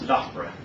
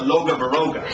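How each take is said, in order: First: The name has the local pronunciation. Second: The name has a visiting tourist's pronunciation. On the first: The speaker calls it right. "the local pronunciation was Loughborough" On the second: The speaker calls it wrong. "The American tourist said"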